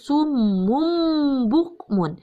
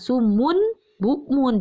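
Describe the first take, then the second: First: The nasal before b changes to m. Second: The nasal before b is a clear n. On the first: The speaker calls it right. "tapi harus sumum bukmun. Berubah menjadi M" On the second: The speaker calls it wrong. "jangan sumun bukmun, jangan jelas"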